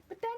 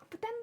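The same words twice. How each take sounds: The two takes are said the same way.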